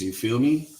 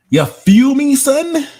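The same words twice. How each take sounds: First: Higher-pitched Brooklyn tag question; playful Brooklyn accent. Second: Very high, loud hammed-up Brooklyn squeal; exaggerated Brooklyn accent. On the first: Pretend. Streamer checking with chat, playful Brooklyn accent. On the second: Streamer teasing chat about accent, exaggerated Brooklyn accent. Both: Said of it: "I do have a B K accent".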